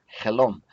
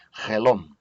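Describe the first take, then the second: First: Helom said with a light breathy h at the start. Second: Helom said with a rasped throat ch at the start, like loch; guttural ch helom. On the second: Teacher repeating the word with a guttural ch. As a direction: scrape the throat on the first sound of helom. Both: Shown as a demonstration.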